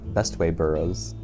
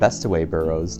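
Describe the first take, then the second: First: The first word has no extra middle syllable. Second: The first word has an extra middle syllable. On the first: The speaker calls it right. "not Bestway Burrows" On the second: The speaker calls it wrong. "I've been calling it Bestaway Burrows"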